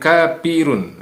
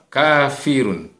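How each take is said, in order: First: The middle consonant is a p sound. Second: The middle consonant is an f sound. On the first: The speaker calls it wrong. "bukan kapirun" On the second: The speaker calls it right. "Fa, kafirun"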